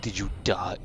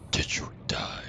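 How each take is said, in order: First: Said in the usual way. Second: Voiceless playful whisper; hushed, whispered check; whispered question. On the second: Pretend. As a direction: whisper it to a fallen opponent. Whispers question to beaten dog.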